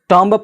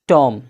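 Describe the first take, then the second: First: The final b sound is pronounced. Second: The final b sound is silent. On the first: The speaker calls it wrong. "टॉम्ब पढ़ना चाहिए लेकिन नहीं" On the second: The speaker calls it right. "बी silent है तो पढ़ा जाएगा टॉम"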